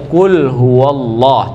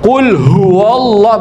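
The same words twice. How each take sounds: First: The h is said lightly and relaxed. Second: The h is pushed hard from the chest. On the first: The speaker calls it right. "Bagaimana cara yang benar? Relax saja" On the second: The speaker calls it wrong. "Ha itu dikokang. ... Itu suara dari dada, bukan dari tenggorokan"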